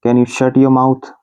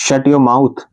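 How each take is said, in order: First: Drawn out syllable by syllable; very slow. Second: Said in the usual way. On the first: Shown as a demonstration. Teacher repeating the phrase very slowly for students. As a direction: stretch every word for learners to copy. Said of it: "teacher repeats it slowly". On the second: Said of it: "teacher models the phrase".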